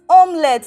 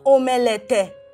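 First: The E is silent, with no extra vowel. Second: The E is sounded as an extra vowel. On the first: The speaker calls it right. "it's pronounced as omelette" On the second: The speaker calls it wrong. "not omelette. This E is silent"

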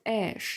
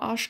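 First: The name is said with English pronunciation. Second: The name is read out as German spelling. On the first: The speaker calls it right. "das heißt Ash, nicht Arsch" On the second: The speaker calls it wrong. "Ich habe es immer so ausgesprochen, wie es da steht"

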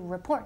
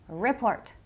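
First: The stress falls on the second syllable. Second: The stress falls on the first syllable. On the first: The speaker calls it right. "report tiene el acento, énfasis in the second syllable" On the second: The speaker calls it wrong. "not report. Porque todo el mundo dice, report"

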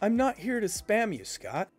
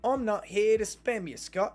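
First: It is spoken in the speaker's ordinary accent. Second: It is spoken in an imitated Australian accent.

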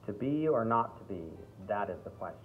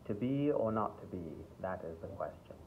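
First: It is spoken in a strong American accent. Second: It is spoken in a standard English accent. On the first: "if you went even further into an American accent, it might be a little too much" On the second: "standard English"

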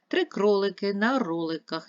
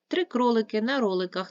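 First: It is read at a slower pace. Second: It is read at a faster pace.

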